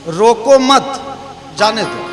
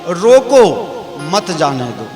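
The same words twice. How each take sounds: First: The pause comes right after 'mat'. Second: The pause comes right after 'roko'.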